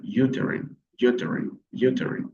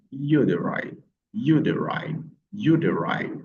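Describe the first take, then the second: First: "uterine" with last syllable like IN; uterine ending in -in. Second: "uterine" with last syllable like EYE; uterine rhyming with wine. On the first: Teacher offering learners the other possible pronunciation, "uterine" ending in -in. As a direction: end "uterine" on a short -in sound. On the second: Teacher drilling learners on one of two pronunciations, "uterine" ending like wine. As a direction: end "uterine" on a long -ine as in wine. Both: Shown as a demonstration. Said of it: "Vous avez deux prononciations possibles".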